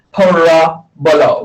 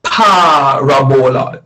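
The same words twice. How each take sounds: First: Parabola drawn out slowly as pa-RA-bo-la; slow, second-vowel stress. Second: Parabola drawn out slowly as PA-ra-bo-la; slow, first-vowel stress. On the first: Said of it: "the emphasis on the second vowel". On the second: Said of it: "the emphasis on the first vowel". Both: Shown as a demonstration.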